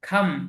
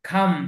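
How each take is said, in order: Both takes have the same delivery.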